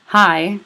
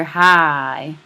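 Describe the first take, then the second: First: Said in the usual way. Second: Hi stretched out slow in a Southern accent; Southern drawl. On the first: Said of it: "instead of hearing". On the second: Shown as a demonstration. Teacher showing a Southern dialect, hi drawn out in a Southern accent. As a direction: draw hi out long like a Southern speaker. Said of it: "Southern dialect".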